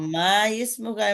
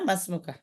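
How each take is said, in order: First: The 'i' of ismuka is pronounced as its own vowel. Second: The 'i' is dropped, ma runs straight into smuka. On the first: The speaker calls it wrong. "এমনি না" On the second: The speaker calls it right. "এই আলিফের উচ্চারণ হয় না"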